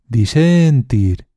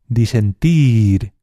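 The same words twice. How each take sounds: First: The stress is on the middle syllable. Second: The stress is on the last syllable. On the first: The speaker calls it wrong. "alargando cada sílaba" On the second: The speaker calls it right. "En este caso es la tercera opción"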